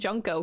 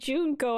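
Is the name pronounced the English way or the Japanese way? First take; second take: English; Japanese. First: The name is said with English pronunciation. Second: The name is said with Japanese pronunciation. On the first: The speaker calls it wrong. "I'm saying Junko because I'm fucking English" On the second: The speaker calls it right. "Her name should be Junko, I think. That's how you would pronounce it"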